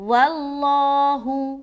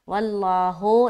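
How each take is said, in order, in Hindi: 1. शब्द का अंत छोटे 'u' स्वर से होता है। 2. शब्द का अंत 'o' स्वर से होता है। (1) "हु हो नहीं बोलना" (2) "वल्लाहो नहीं बल्कि हु"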